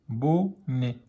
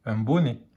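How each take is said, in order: First: "bonnet" slowly split as bo-nnet; syllable by syllable. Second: Said in the usual way. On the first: Shown as a demonstration. Teacher decoding for beginning readers, slow syllable by syllable. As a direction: pause between the two syllables of "bonnet".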